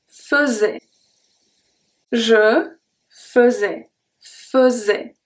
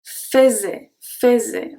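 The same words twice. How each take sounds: First: Faisais with fe, slowly; model pronunciation. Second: Faisait with an open fay-zay; wrong pronunciation. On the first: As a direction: je faisais, the AI as a schwa. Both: Shown as a demonstration. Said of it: "I don't say".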